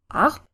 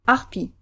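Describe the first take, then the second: First: "Arp" held as a single stressed syllable. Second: "arpi" clipped on the first syllable, landing on i; short unstressed R. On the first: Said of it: "one where the R is stressed". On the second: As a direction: pass lightly over the R in "arpi". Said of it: "first syllable in our new position is shorter". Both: Shown as a demonstration.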